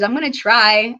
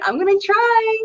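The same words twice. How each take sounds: First: Said in the usual way. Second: Much higher, mock-timid little voice; squeaky high promise. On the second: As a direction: squeak it up like a nervous kid. Third repeat of promise.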